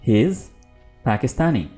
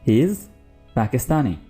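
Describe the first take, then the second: The two takes are said the same way.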